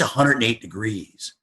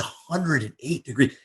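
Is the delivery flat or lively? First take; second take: flat; lively. First: It is said in a plain, flat way. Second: It is said with lively, showy emphasis.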